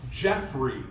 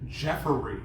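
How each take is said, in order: First: The name is said with two syllables. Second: The name is said with three syllables. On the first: The speaker calls it right. "It's Jeffrey, J E F F R E Y" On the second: The speaker calls it wrong. "my mom used to always say Jeffery, right? Like J E F F E R Y"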